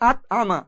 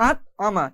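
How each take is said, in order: No difference in how they are said.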